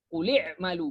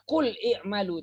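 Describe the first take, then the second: First: The two words run together without a hamzah. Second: The two words are separated with a sounded hamzah. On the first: The speaker calls it right. "tapi quli'malu" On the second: The speaker calls it wrong. "Jadi tidak dibaca qul i'malu"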